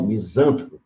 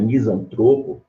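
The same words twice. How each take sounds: First: Misântropo stressed on ZAN; antepenultimate stress. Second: Misantropo stressed on TRO; penultimate stress. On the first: Teacher showing the mistaken form, misântropo stressed on ZAN. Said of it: "proparoxítono". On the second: Teacher giving the correct form, misantropo stressed on TRO. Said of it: "paroxítono". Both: Shown as a demonstration.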